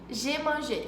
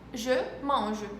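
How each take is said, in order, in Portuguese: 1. A tônica cai no final da palavra. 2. A tônica cai no início da palavra. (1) "Eu escuto demais o pessoal falando" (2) "O peso maior é no início da palavra"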